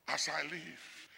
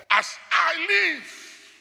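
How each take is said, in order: First: As I live dropped very soft and slow; God's oath repeated, hushed; soft echo. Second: As I live very high and very slow; God's oath, high and slow; drawn-out oath. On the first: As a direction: echo as I live quietly under the breath. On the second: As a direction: stretch As I live out high like a solemn vow. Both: Acted.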